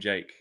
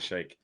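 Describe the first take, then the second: First: The name begins with a 'j' sound. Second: The name begins with an 'sh' sound. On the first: The speaker calls it wrong. "calling him Jake" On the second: The speaker calls it right. "instead of Shake"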